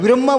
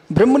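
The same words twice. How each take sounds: First: ब्रह्मा ending in a clear long aa; long final vowel. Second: ब्रह्म ending in a brief short a; short final vowel. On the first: Teacher naming the word meant, long aa in ब्रह्मा. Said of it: "ब्रह्मा बोल रहा हूं". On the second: Teacher ruling out a word, short ending on ब्रह्म. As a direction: keep the end of ब्रह्म short. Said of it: "ब्रह्म नहीं बोल रहा हूं". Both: Shown as a demonstration.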